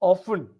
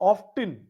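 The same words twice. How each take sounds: First: It is said in an English accent. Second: It is said in an American accent. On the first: "Often is English" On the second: "often is American"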